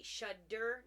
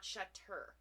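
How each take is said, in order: First: Shudder said with a clear D sound, SHUH-der; correct pronunciation. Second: Shutter said with a crisp T sound, SHUH-ter; wrong pronunciation. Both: Shown as a demonstration. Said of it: "It's D D, not T T".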